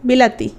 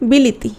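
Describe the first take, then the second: First: The middle syllable has an 'a' vowel. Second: The middle syllable has an 'i' vowel. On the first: "শব্দটা ধরো বিলাতি" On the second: "আমি বললাম বিলিতি"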